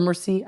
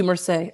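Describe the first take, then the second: First: "merci" ending in "see"; tentative "merci", second syllable rhyming with "sea"; French word attempt. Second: "merci" ending in "say"; tentative "merci", second syllable rhyming with "day"; French word attempt. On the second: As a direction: say "merci" as mer-SAY. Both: Shown as a demonstration. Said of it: "I can't even say it".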